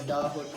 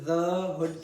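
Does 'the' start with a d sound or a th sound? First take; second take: d sound; th sound. First: The word 'the' starts with a d sound. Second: The word 'the' starts with a soft th sound. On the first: "एक stop से आपने substitute कर दिया" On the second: "की बजाय"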